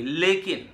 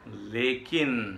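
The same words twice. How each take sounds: First: लेकिन raised in pitch, falling at the end; spring लेकिन on the listener as the catch; emphatic catch. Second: लेकिन very slow, falling away; a slow, lingering लेकिन; drawn-out catch. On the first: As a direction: punch लेकिन higher than the words before. Catch sprung after permission is granted. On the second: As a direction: stretch लेकिन out and let it hang. Repeats the catch, teasingly drawn out. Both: Retold or imitated.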